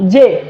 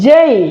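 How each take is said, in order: First: The vowel stays plain without a glide. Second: The vowel glides toward an ee sound. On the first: The speaker calls it wrong. "আমাদের উচ্চারণ করা হতো জে" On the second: The speaker calls it right. "এরপরে এটির উচ্চারণ করতে হবে জেই"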